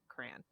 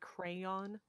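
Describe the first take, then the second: First: The word is squeezed into one syllable. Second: The word is said with both syllables. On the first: This is how people in Michigan say it. "But if you live in Michigan, it's like crayon" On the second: This is how people from the West Coast say it. "they also say crayon with all of the syllables"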